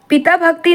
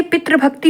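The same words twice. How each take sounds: First: पिता with -taa before भक्ति; wrong form. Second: Said in the usual way. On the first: Shown as a demonstration. Teacher rejects a misspelling, पिता ending in long aa. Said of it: "पिता भक्ति नहीं". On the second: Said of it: "पितृभक्ति होता है".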